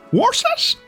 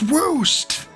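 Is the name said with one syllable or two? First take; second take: two; one. First: The name is said in two full syllables. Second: The name is said as one short syllable. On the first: The speaker calls it wrong. "some characters say Worcest and he gets mad about it" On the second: The speaker calls it right. "It's Woost"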